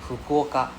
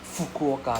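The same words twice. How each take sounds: First: The first sound is a soft, breathy H-like blow. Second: The first sound is a hard English F. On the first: The speaker calls it right. "they will say Fukuoka" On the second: The speaker calls it wrong. "they won't like Fukuoka there's no fu"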